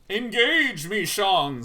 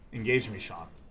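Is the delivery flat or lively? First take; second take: lively; flat. First: It is said with lively, varied tone. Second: It is said flatly, with no variation.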